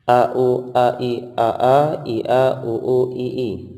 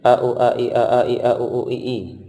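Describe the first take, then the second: First: The sequence is read at a slow pace. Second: The sequence is read at a faster pace. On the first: "Jadinya bacaan seperti ini" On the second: "Dipercepat lagi"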